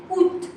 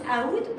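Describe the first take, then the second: First: "out" said as French "oot"; silent A. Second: "out" with the A sounded, ah-oot; pronounced as spelled. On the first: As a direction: drop the A, say "out" as "oot". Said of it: "We say out". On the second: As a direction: open "out" with an audible "a" before "oot". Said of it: "you should pronounce out". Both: Shown as a demonstration.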